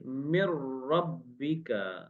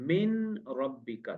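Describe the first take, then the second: First: The n merges fully into the following r. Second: The n is pronounced clearly before the r. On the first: "मगर हमने क्या किया? मिर रब्बिका करके पढ़ा" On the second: "अब मिन रब्बिका था"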